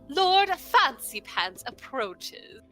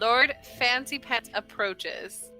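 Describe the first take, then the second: First: It is said in a feminine, posh voice. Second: It is said in a normal voice.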